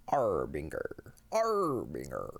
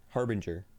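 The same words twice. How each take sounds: First: Slow, low Harbinger, lightly voiced pirate; a hint of pirate, slow and lower. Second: Said in the usual way. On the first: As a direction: drag out Harbinger like a hammy pirate. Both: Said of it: "Say it like a pirate".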